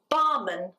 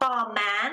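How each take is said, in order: First: The last syllable has a reduced schwa vowel. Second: The last syllable has a full, clear vowel. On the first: The speaker calls it right. "You've got a schwa at the end" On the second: The speaker calls it wrong. "so it's not barman"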